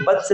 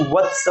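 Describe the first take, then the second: First: वत्स said with B for V, "batsa"; wrong B sound. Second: वत्स said with a V, "vatsa"; correct V sound. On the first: Teacher showing the mistaken form, wrong B in वत्स. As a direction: start वत्स on a hard B. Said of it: "वत्स नहीं होता है". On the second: Teacher correcting the mistake, proper V in वत्स. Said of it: "ये वत्स होता है". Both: Shown as a demonstration.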